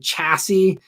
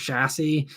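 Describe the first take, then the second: First: The opening sound is hard and strong. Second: The opening sound is soft and light. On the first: This is the American way of saying it. "a very Americanized way of saying it" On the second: This is the British way of saying it. "Maybe I'm saying the British uh, version"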